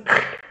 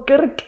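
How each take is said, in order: First: "Krrk" as one vowelless consonant burst; "Krrk" rasped out with no vowel; sneeze-like Krk. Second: "Kirk" loud and higher, with a clear i; "Kirk" voiced, in sudden realisation; Kirk with a vowel. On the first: Retold or imitated. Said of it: "er musste niesen". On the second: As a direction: say "Kirk" with an i before the r. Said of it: "Weil das R halt nicht rauskam".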